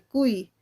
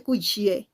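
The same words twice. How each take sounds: First: "cuy" ending in a vowel I sound; "cuy" with its final Y sounded like I. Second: "cuy" ending in a consonant "ye" sound; wrong "cu-ye" reading of "cuy". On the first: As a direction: say "cuy" as "kui", gliding from U to I. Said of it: "suena como I". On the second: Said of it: "no suena como Y". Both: Shown as a demonstration.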